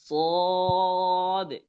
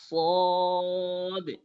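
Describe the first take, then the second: The two takes are said the same way.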